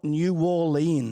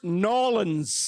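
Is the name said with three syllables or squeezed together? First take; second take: three syllables; squeezed. First: The name is said in full, three syllables. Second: The name is squeezed together into fewer syllables. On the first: The speaker calls it wrong. "it's not New Orleans" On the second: The speaker calls it right. "It's Norlands"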